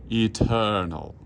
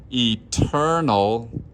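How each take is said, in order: First: "eternal" with a flat, spread vowel. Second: "Eternal" with a tall, open first vowel, a little slow; vertical eternal. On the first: Choir director showing singers the wrong "eternal". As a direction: show the wrong, wide "eternal". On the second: Choir director showing singers the right "Eternal". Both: Shown as a demonstration. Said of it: "rather than eternal".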